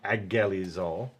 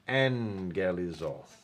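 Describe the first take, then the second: First: The middle consonant is a plain g sound. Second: The middle consonant is an ng sound. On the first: The speaker calls it wrong. "So that not agelizol" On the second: The speaker calls it right. "the actual way of pronouncing that in English that we do now is NG"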